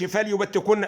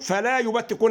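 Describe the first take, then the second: First: The l has no vowel after it. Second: The l is followed by a long a. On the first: "انت سكنت اللام ليه؟" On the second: "هي مش لام الف"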